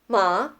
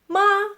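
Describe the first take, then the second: First: The pitch rises from mid to high. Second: The pitch stays high and level. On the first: It means hemp. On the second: It means mother.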